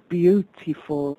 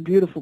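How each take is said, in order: First: It is said carefully with every syllable enunciated. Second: It is said casually in a Bronx accent. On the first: This is how the contest required it. The speaker calls it right. "but you had to say beautiful" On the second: This is how people at home said it. The speaker calls it wrong. "we'd say beautiful"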